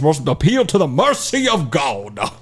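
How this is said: It is spoken in a Southern American accent. "Southern lawyer"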